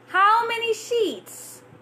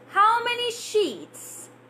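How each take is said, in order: The two takes are said the same way.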